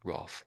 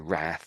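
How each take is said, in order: First: The word is said with a British vowel. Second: The word is said with an American vowel. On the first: "So Roth, we say" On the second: "The Americans say it slightly different. They say wrath"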